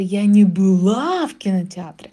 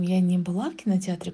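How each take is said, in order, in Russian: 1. Отрицание произносится с сильным ударением. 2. Отрицание произносится просто, без ударения.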